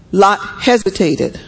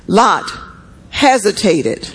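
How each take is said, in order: First: Said in the usual way. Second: Lot, then a long pause, then hesitated drawn out slowly; dramatic pause. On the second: Shown as a demonstration. Preacher stressing Lot's delay to the church, pause after Lot.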